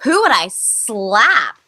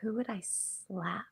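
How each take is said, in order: First: Slow stretched-out question, louder; slow, drawn-out repeat. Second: Much softer, slow thoughtful murmur; quiet musing. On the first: Taking the interviewer's question seriously, slow stretched-out repeat. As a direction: drag it out as you finally decide. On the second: Answering the interviewer's silly question, soft slow musing. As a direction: muse it under your breath, weighing the question. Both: Real, not acted.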